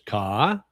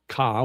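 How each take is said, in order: First: The word is said with a rising pitch. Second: The word is said on a level middle pitch. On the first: "which is rising tone" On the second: "which is middle tone"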